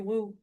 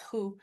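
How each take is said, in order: First: The word starts with a w sound. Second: The word starts with an h sound. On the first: The speaker calls it wrong. "it should be woo, but it's not" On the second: The speaker calls it right. "It's who"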